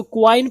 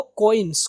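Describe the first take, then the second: First: "کوائن" as ku-wain; "کوائن" rhyming with wine; common wrong coin. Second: "کوئنز" as ko-ins; "کوئنز" with an o sound, no wa; correct coins. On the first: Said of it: "ہم لوگ اس کو کوائن پڑھتے ہیں". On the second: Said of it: "کو کی بھی آواز آئے گی". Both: Shown as a demonstration.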